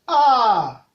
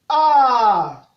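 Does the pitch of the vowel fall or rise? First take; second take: fall; fall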